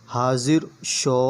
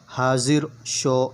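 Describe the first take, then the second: No difference in how they are said.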